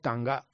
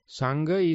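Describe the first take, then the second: First: The word begins with a T sound. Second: The word begins with an S sound.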